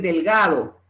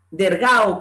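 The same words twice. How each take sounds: First: Said in the usual way. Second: DERGAO with R for L and no D. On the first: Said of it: "por decir delgado". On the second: Shown as a demonstration. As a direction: say "delgado" as dergao. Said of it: "Pronunciación de la R en lugar de la L".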